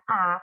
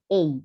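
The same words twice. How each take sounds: First: It is said the Indonesian way. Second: It is said the English way. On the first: "di Indonesia bacanya A" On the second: "kalau di bahasa Inggris bacanya A"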